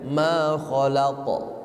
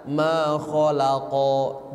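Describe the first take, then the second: First: "ma kholaqo" ending in a short rebound off the q; bouncing qalqalah. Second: "ma kholaqo" stretched, with no bounce; smooth wrong reading. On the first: Teacher contrasting sounds, "ma kholaqo" with bounce. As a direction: jolt the q in "ma kholaqo". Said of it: "Ada pantulan". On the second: Teacher contrasting sounds, "ma kholaqo" without a jolt. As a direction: draw "ma kholaqo" out to a long o. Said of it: "Karena beda bu". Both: Shown as a demonstration.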